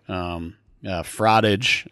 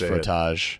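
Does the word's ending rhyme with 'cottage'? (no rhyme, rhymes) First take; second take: rhymes; no rhyme. First: The ending rhymes with the word cottage. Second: The ending does not rhyme with cottage. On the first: The speaker calls it wrong. "like cottage" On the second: The speaker calls it right. "I believe it's pronounced Frotage"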